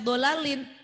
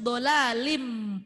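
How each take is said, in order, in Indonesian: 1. Kata "dolalin" berakhir dengan bunyi n yang jelas. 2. Kata "dolalin" berakhir dengan bunyi m yang ditahan. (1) "jangan dibaca dolalin" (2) "langsung dolalim dua ketukan"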